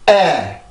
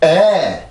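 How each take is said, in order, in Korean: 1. 모음의 리듬은 성대의 긴장에서 생겨요. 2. 음높이를 올려서 모음을 밀어내는 거예요. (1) "리듬만 잡아볼게요" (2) "절대로 그 소리를 높여서 만드는 게 아니에요"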